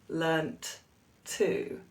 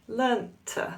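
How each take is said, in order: First: The first t is fully released separately. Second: The first t is glottalized, stopped in the throat. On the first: The speaker calls it wrong. "we don't say learnt to" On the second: The speaker calls it right. "we say learnt"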